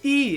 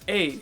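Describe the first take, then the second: First: The letter has the English name. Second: The letter has the Dutch name. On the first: "In English, the vowels are A, E" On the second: "the E is A"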